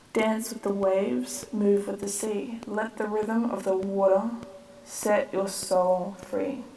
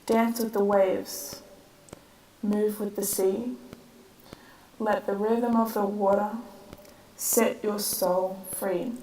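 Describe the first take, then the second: First: The lines run on without added silences. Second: A short silence follows each of the first two lines. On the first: The speaker calls it wrong. "I don't think I like how I said it just then" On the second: The speaker calls it right. "at the end of each of the first two lines, I've added a little rest"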